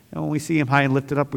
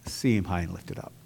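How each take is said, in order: First: Said in the usual way. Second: Lower, softer, intimate appeal; quiet heartfelt charge to the congregation; soft urging. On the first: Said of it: "repeated refrain". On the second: Acted. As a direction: lean in and say it gently. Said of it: "I want to encourage you today".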